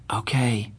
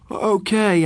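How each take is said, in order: First: Said in the usual way. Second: Sleepy okay through a yawn. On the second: Acted. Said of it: "I yawned".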